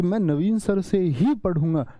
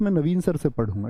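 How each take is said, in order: First: ही pressed with a falling end; stress on ही. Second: Said in the usual way. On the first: Shown as a demonstration. Teacher voicing student's emphatic sentence. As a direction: punch ही. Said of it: "जोर दे दिया वाक्य में". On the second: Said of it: "ठीक था".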